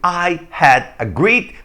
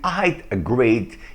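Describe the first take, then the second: First: The word had is said in full. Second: The word had is contracted to a d. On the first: "Ao invés de dizer" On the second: "você pode dizer"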